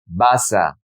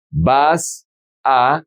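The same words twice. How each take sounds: First: "vas a" joined as one word, va-sa; linked words. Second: "Vas a" as two separate words, pause between. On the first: Teacher showing how the words sound together, linked. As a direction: carry the s of "vas" into "a". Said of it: "is gonna be". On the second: Teacher showing the words before joining them, said separately. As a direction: say "Vas", stop, then "a" on its own. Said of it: "how do we pronounce these words together". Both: Shown as a demonstration.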